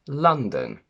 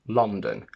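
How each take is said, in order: First: The first vowel is an 'ah' sound. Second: The first vowel is an 'o' sound. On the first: The speaker calls it right. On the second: The speaker calls it wrong.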